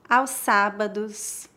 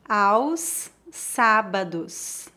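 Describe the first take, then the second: First: It is spoken at a natural pace. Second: It is spoken slowly and carefully. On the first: "2 vezes mais naturalmente" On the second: "Uma vez mais devagar"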